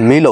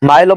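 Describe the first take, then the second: First: The vowel sounds like 'ee'. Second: The vowel sounds like 'eye'. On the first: The speaker calls it right. "মিলও বলা যায়" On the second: The speaker calls it wrong. "মাইলও বলা যায়"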